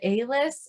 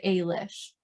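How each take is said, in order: First: The name ends with an s sound. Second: The name ends with an sh sound. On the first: "one pronounced it" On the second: "the other pronounced it"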